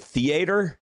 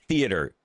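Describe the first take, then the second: First: It is said with a Southern US accent. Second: It is said with a standard US accent. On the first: The speaker calls it wrong. "the southern accent as like ignorant sounding" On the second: The speaker calls it right. "It's pronounced theater"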